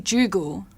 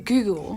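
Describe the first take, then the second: First: The word begins with a J sound. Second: The word begins with a hard G. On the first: The speaker calls it wrong. "you don't say Joogle" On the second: The speaker calls it right. "say Google"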